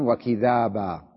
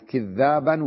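First: وكذابا with the ذ said once; single consonant. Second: كذابا with the ذ doubled; doubled consonant. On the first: Teacher repeating the second reading for students, undoubled ذ in وكذابا. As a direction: pass lightly over the ذ, "wa-kidhaaba", in وكذابا. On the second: Teacher repeating the first reading for students, geminated ذ in كذابا. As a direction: lean on a long ذ, "kidh-dhaaban", in كذابا. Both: Shown as a demonstration. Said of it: "قرئت".

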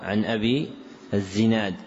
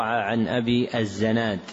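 First: الزناد said "az-Zinad"; kasra on zay. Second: الزناد said "az-Zanad"; fatha on zay. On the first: Teacher correcting the name, الزناد with kasra. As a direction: put a short "i" after the z in الزناد. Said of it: "وهو". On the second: Teacher citing a misprinted name, الزناد with fatha. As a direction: put a short "a" after the z in الزناد. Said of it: "وقع". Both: Shown as a demonstration.

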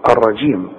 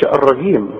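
First: الرجيم with "j" as in jam; soft affricate jim. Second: الرجيم with a hard "g", ar-ragim; wrong hard jim. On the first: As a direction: model الرجيم as ar-rajim. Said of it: "كل جيم في القرآن لابد إنها تعطش". (الرجيم بجيم معطشة) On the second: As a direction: mispronounce الرجيم the Egyptian way with g. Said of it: "لابد إنها تعطش، ما تقولش الرجيم". (الرجيم بجيم مصرية غلط) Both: Shown as a demonstration.

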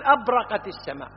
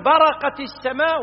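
First: أبرقت with an added a- in front; wrong form with hamza. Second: Slow, raised برقت starting straight on BA; correct form without hamza. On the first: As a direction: begin أبرقت on a glottal AB-. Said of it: "ولا تقول أبرقت السماء". (نطق أبرقت بهمزة زائدة في أولها) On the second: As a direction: say برقت slowly, no leading a-. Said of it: "وتقول برقت السماء". (نطق برقت ببطء بلا همزة في أولها) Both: Shown as a demonstration.

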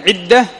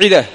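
First: عدة said "'idda", with a doubled d; with shadda. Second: عدة said "'ida", with a single d; without shadda. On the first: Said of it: "بالتشديد من العدد". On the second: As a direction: keep the d of عدة short and single. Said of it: "وبدون التشديد". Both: Shown as a demonstration.

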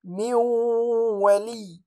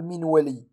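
First: من ولي with the nun merged into waw and held nasal; nasalized merge. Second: من ولي with the nun fully pronounced; clear nun. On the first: Teacher reciting the correct merged nun. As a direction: recite من ولي with two-beat ghunna. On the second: Teacher showing the wrong reading, plain nun. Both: Shown as a demonstration. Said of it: "ولا أقول".

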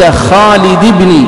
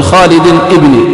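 First: خالد بن with بن said as "bini", linked, no alif sound; correct reading. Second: خالد ابن with ابن said "ibni", a separate glottal start; wrong reading. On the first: Teacher modelling the correct name chain, slow and careful. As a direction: say "khalidi bini" smoothly, slow. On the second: Teacher showing students the wrong form to avoid. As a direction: say "khalid ... ibni" as the mistaken form. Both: Shown as a demonstration. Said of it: "ولا تقول".

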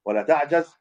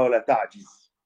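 First: تعجز said with an open a on the jim, taʕjaz; fatha reading. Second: تعجز said with an i on the jim, taʕjiz; kasra reading. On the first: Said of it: "رواية تقريبًا بالفتح الجيم". (تعجز بفتح الجيم: تَعجَز) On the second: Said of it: "في بكسر الجيم". (تعجز بكسر الجيم: تَعجِز) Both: Shown as a demonstration.

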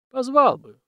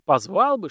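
First: High, louder echo of her words; husband tossing his wife's words back; emphatic echo. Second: Said in the usual way. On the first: Acted. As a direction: echo her, half reluctant.

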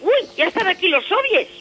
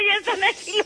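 First: High, loud mock alarm; playful fright at the soviets. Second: High-pitched mock fright; squeaky playful alarm. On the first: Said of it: "y digo". (falso susto exagerado) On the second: (susto fingido y agudo)

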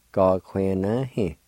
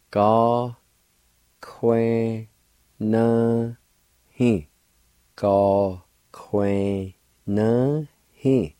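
First: Said in the usual way. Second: Gá cúin na hí said very slowly; slow drawn-out demo. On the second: Shown as a demonstration. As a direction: stretch each syllable out for the learner. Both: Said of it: "Pronounce like this".

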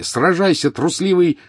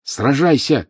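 First: High furious shout. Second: High, loud shouted challenge. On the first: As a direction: scream it at the coward. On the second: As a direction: shout it at him. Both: A narrator's reading. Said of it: "крикнул Гарри".

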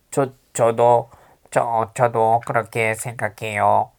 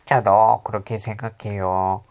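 First: Slow pinched-nose nasal voice. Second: Said in the usual way. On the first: Shown as a demonstration. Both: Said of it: "일부러 코맹맹이 소리 하는 거야".

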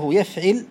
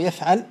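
First: يفعل with a short i on the ع, "yaf'il"; kasra on the middle letter. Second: يفعل with a short a on the ع, "yaf'al"; fatha on the middle letter. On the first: Teacher listing verb patterns, kasra on ع. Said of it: "بكسر العين". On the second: Teacher listing verb patterns, fatha on ع. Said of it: "بالفتح". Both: Shown as a demonstration.

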